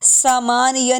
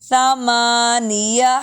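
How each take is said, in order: First: It begins with a plain s sound. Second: It begins with a th sound. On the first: The speaker calls it wrong. "सा नहीं पढ़ेंगे इसको" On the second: The speaker calls it right. "जुबान को दांतों के नीचे लेकर आएंगे"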